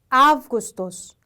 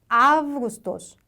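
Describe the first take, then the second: The two takes are said the same way.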